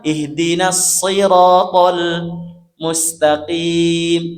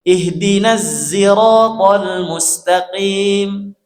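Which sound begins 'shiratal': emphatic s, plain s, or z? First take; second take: emphatic s; z. First: The word begins with an emphatic s sound. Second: The word begins with a z sound. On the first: "Kan kata niku" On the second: "mengganti huruf shad jadi huruf za"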